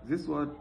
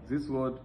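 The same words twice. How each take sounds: No difference in how they are said.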